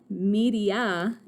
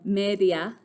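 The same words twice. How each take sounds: First: It is pronounced with English sounds. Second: It is pronounced with Spanish sounds.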